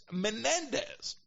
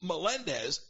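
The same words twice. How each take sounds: First: "Menendez" with N in place of L; pronounced with an N. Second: "Melendez" with an L in the middle; pronounced with an L. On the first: Correcting his name, the right version, slow high "Menendez" with N. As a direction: draw out "Menendez" slowly, pitched high, N in the middle. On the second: Correcting his name, the wrong version, "Melendez" with an L. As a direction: say "Melendez" with L, stressed on "len". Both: Shown as a demonstration. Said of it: "not Melendez, Menendez".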